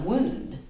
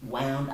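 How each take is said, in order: First: The word does not rhyme with 'sound'. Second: The word rhymes with 'sound'. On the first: This is how people say it now. "I'd call that a wound" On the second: This is how people said it long ago. "people said the word wound, meaning an injury, to rhyme with sound"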